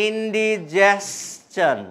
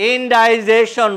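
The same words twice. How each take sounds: First: ইনডিজেশন said very slowly as in-di-JES-chon; correct pronunciation. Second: ইনডাইজেশন said slowly as in-DIE-jeshon; wrong pronunciation. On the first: Teacher giving students the right form, very slowly. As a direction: stretch ইনডিজেশন out syllable by syllable. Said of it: "আপনাকে বলতে হবে". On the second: Teacher showing students the common spelling-based mistake, slowly. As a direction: draw out ইনডাইজেশন with the long "die". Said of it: "ইনডাইজেশন বললে ... বুঝবে না". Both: Shown as a demonstration.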